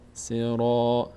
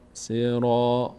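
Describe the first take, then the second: The two takes are said the same way.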